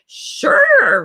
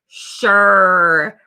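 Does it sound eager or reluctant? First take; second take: eager; reluctant. First: It sounds eager and enthusiastic. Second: It sounds reluctant and unwilling.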